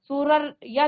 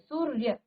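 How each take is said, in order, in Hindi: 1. र को पूरा बोला जाता है, अपने स्वर के साथ। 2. र को आधी ध्वनि की तरह बोला जाता है, बिना स्वर के। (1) "पूरा आप र नहीं बोलेंगे, सू सूरर या नहीं कहेंगे" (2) "यहाँ पर आप र का उच्चारण आधा स्वर की तरह करेंगे"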